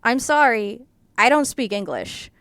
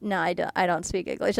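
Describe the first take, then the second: First: The line spoken in Chinese, lightly voiced; deadpan fake apology in Chinese. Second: Softer, flat deadpan denial; low-key fake innocence; retelling the stare-down with the hotel worker, deadpan; deadpan refusal. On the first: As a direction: stare the hotel worker down and say it in Chinese. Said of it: "I said in Chinese". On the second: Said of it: "looking a guy dead in the eye".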